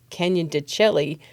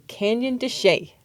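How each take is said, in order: First: The last word is pronounced as it is spelled. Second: The last word is not pronounced as spelled. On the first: The speaker calls it wrong. "some people mistakenly call it Canyon de Chelly because that's how it looks like it's spelled" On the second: The speaker calls it right. "You say Canyon de Chelly"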